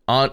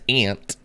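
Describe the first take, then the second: First: Its vowel differs from the insect word ant. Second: It sounds just like the insect word ant. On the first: The speaker calls it right. "Aunt is the proper way to say it" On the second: The speaker calls it wrong. "If you say it as ant, as I would"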